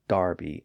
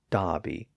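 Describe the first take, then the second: First: The first vowel sounds like 'ar' with an R. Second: The first vowel sounds like 'ah' without an R. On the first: "Brits call Darby" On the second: "Dobby and Bockley without the R sound"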